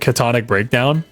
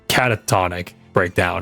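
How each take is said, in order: First: The first word has three syllables. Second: The first word has four syllables. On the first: The speaker calls it wrong. "I've been pronouncing it wrong this entire time" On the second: The speaker calls it right. "I think it's pronounced Catatonic Breakdown"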